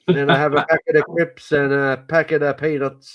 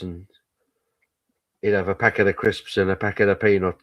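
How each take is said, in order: First: It is said imitating the Irish man's accent. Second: It is said in the speaker's normal voice.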